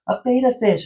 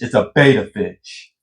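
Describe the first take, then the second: First: It is said timidly, without force. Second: It is said boldly, with force.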